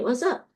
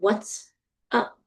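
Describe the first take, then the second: First: The sounds run together into one blended word. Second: Each word is said separately and carefully. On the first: "We say" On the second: "we don't often say"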